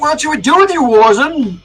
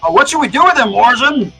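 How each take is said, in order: First: It is said in a plain voice. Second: It is said in a gruff voice.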